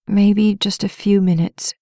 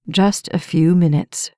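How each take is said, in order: First: Sleepy, drifting off; half asleep, giving in; drowsy. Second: Gentle coaxing. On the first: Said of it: "already drifting away". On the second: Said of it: "he said, his eyes gentle". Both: A narrator's reading.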